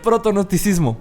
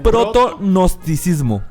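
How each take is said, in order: First: The word is said at normal speed. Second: The word is said slowly and deliberately.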